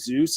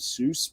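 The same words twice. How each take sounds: First: The word ends with a z sound. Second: The word ends with an s sound. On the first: The speaker calls it wrong. "I say Zeus ... S's can become Z's" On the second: The speaker calls it right. "instead of Zeus"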